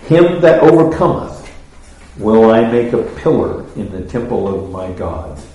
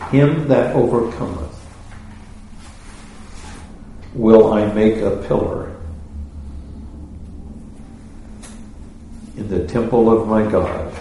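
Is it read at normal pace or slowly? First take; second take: normal; slowly. First: It is read at a normal pace. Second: It is read slowly.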